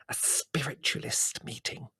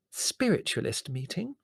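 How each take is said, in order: First: Slow, secretive whisper; hissed whisper. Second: High, rising voiced question; puzzled echo. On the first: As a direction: hiss it like a scandalous secret. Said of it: "she hissed". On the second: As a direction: repeat it aloud in disbelief. Mother echoes the secret aloud. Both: A narrator's reading.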